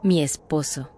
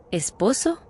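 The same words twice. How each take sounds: First: Low, level and unbothered; calm defiance. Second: Mild mock disbelief, rising at the end; shocked echo. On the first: Retold or imitated. The woman answers the narrator calmly and defiantly. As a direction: state it coolly, daring him to judge. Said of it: "Me miró tranquila, hasta desafiante". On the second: The narrator echoes her word in mild mock shock. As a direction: echo the word as if choking on a beer. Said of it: "Casi me atraganto con la cerveza".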